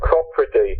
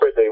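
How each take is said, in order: First: The first syllable sounds like 'crop'. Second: The first syllable sounds like 'crap'. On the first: This is how the band says it. The speaker calls it right. "we say Cropredy" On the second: This is how local Oxfordshire people say it. The speaker calls it wrong. "the worst pronunciation of Cropredy is Crapredy"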